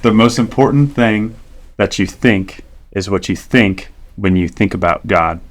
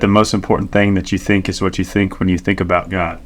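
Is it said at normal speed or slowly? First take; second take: slowly; normal speed. First: It is said slowly. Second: It is said at normal speed.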